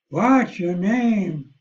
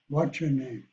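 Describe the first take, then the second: First: It is said in an imitated Texan accent. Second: It is said in a general Midwestern American accent. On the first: "if I came from Texas" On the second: "I speak Midwestern English"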